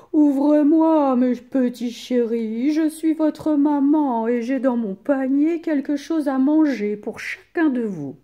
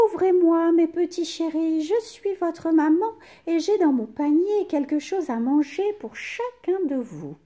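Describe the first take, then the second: First: A wolf loudly putting on a mother's voice; wolf at the door. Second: Wolf faking a soft high mother's voice. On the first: Wolf calling to the kids through the door, loud fake-sweet voice. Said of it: "Il sonne à la porte et dit". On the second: Wolf pretending to be mother, softer high voice. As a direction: sweet-talk them, pitched high. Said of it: "dit d'une voix douce". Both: A narrator's reading.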